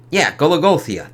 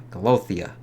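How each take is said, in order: First: Gologothia said as ko-lo-GO-thee-a, full syllables; correct pronunciation. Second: Golothia said as go-LO-thee-a, dropping the middle syllable; wrong try. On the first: Reviewer finally getting the city's name right. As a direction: land Gologothia firmly with stress on GO. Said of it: "There we go". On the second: Reviewer fumbling the name of the living city. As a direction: stumble on Golothia with three syllables. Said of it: "sorry, it's a weird one". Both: Shown as a demonstration.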